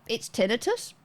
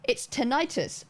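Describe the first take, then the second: First: "tinnitus" said TIN-uh-tus, rising; questioning TIN-ih-tus for "tinnitus"; short-i pronunciation. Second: "tinnitus" said tin-EYE-tus; "tinnitus" as tuh-NIGHT-us; long-i pronunciation. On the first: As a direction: stress the first syllable of "tinnitus", short middle vowel. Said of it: "other people would be like". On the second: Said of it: "That's how you get tinnitus". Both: Retold or imitated.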